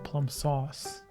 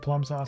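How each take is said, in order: First: The stress falls on the word sauce. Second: The stress falls on the word plum.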